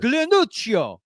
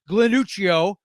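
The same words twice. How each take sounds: First: It is said in an exaggerated Italian accent. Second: It is said in the speaker's plain accent.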